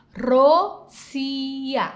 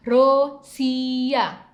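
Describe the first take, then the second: No difference in how they are said.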